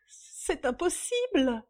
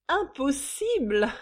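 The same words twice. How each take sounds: First: High, slow, shocked denial; stunned disbelief. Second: Loud, high, drawn-out mockery; sneering echo. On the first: Young woman refusing the news, stunned. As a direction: draw it out in disbelief. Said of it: "la jeune femme anéantie". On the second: Mistress mocking the visitor's disbelief, sneering. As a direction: throw the word back scornfully. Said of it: "ricana Suzanne". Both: A narrator's reading.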